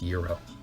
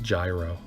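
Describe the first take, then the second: First: The word begins with a 'y' sound. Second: The word begins with a 'j' sound. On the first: The speaker calls it right. "but it's pronounced Euro" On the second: The speaker calls it wrong. "for my American friends"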